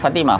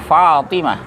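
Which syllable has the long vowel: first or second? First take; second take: second; first. First: The long vowel is in the second syllable. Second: The long vowel is in the first syllable. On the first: The speaker calls it wrong. "Bukan Fatimah" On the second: The speaker calls it right. "Yang panjang fa-nya, bukan ta"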